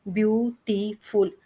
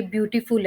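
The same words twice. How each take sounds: First: beautiful slowly split into three beats, ब्यू-टी-फुल; syllable by syllable. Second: Said in the usual way. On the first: Shown as a demonstration. Teacher showing three syllables, beautiful said slowly in separate parts. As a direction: break beautiful apart with a gap after each syllable. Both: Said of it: "तो इसके three syllable है".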